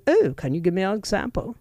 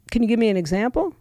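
First: Imitated South African British lilt; put-on British-South African voice; South African British accent. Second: Said in the usual way. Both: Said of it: "Elon Musk has the South African British accent".

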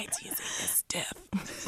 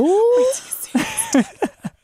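First: Slow, breathy secret whisper; leaning in to whisper. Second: Excited exclaim. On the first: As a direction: lean in, hush it slowly. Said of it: "your A S M R voice". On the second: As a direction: burst out, way up and drawn out. Loud version after whisper. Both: Shown as a demonstration.

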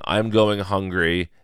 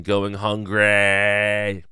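First: Understated stoic delivery, slowly. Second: Sung, mock wail with the last word stretched long; sung, Gary freaking out. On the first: Retold or imitated. Voicing stoic Ron in the hungry meme, stoic. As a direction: say it stolidly, drawn out a little. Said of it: "looking very sort of stoic". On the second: Sung, Gary freaking out in the meme, drawn-out mock wail. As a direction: draw out the lyric in a half-sung cry. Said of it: "Gary is just freaking out".

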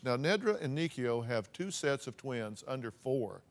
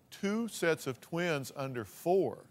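First: Said in the usual way. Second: Slow, higher, each word leaned on; Two sets of twins under four, drawn out slowly and pitched up; emphatic repeat. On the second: Real, not acted. Talk-show host repeats the guests' situation to the audience, slow and emphatic.

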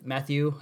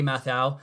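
First: Mathieu said as "MATH-yoo"; corrected pronunciation. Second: Mathieu said as "math-OW"; unsure pronunciation. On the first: Host retrying a French surname like Tyrann's, Mathieu pronounced "math-yoo". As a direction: end Mathieu on a "yoo" sound. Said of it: "It's the, the French name". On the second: Host guessing at a player's French surname, Mathieu pronounced "math-ow". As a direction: end Mathieu on an "ow" sound. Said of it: "I don't know how to say it". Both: Real, not acted.

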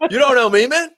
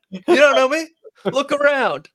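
First: Loud, high mock tough guy; fake tough guy swagger. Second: Very loud, high mock bravado; hammed-up bravado, rising at the end; fake tough guy swagger. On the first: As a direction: puff up and bark it out. Mock brag about being unknown. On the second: Repeats mock brag, louder still.

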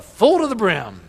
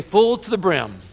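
First: Loud, slow, high and full of passion; said like you love it. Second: Said in the usual way. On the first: Shown as a demonstration. Pastor urges the congregation, loud and passionate. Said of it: "Now say it like you love it". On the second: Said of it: "Let me hear you say".

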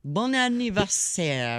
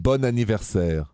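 First: "Bon anniversaire" repeated slowly with anglicised vowels and no French r; halting phrasebook tourist. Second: "Bon anniversaire" said smoothly with French nasal bon and uvular r; native French. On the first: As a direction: sound out "Bon anniversaire" carefully like a learner. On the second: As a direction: model "Bon anniversaire" like a fluent French speaker. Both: Shown as a demonstration. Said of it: "How do you say it in French".

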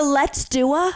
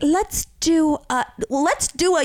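First: Mock customer voice; imitating customer. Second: Slow, high mocking repeat; mocking customer. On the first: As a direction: play back her phrase. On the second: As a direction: drag out the phrase mockingly. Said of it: "I was like".

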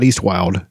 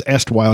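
First: Eastwild with a long "ee", like "east"; mistaken name pronunciation. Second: Estwild with a short "e", as in "best"; correct name pronunciation. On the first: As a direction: say Eastwild starting with the word "east". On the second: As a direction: say Estwild starting like "nest". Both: Shown as a demonstration. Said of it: "It's not Eastwild".

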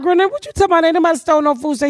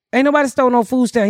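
First: Higher, fast protest of innocence; a higher, rushed kid voice denying everything; pleading kids. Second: Granddad mocking. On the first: Retold or imitated. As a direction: kids insisting they didn't take it. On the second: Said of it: "He said".

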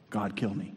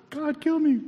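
First: Soft, low acted plea; quiet despair. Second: High-pitched, hammed-up frightened plea; mock panic. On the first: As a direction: mumble a defeated little prayer. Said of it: "it happened like this". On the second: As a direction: squeal it like a terrified prophet. Acts Elijah panicking at the threat.

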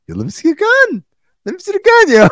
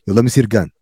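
First: Very high-pitched, whiny kid imitation; childish begging. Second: Said in the usual way. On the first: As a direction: mimic a child pestering for a toy.

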